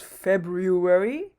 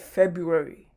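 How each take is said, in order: First: The first R sound is pronounced. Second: The first R sound is left out. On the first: The speaker calls it wrong. "we don't usually pronounce it as February" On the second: The speaker calls it right. "the R in this case is actually silent"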